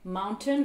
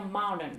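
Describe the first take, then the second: First: 'Mountain' with a clear T; British "Mountain", T after the N; T sounded. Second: American 'mountain' without its T; T dropped. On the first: Teacher gives the first take, Mountain with its T. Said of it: "retrouver cette règle de prononciation". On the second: Teacher shows the change, mountain without T. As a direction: soften "mountain" to 'moun-en'. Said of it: "va devenir". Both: Shown as a demonstration.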